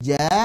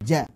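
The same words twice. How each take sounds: First: The vowel is long, two beats. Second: The vowel is short, one beat. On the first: "Dua harokat saat kita potong" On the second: "jadi satu harokat"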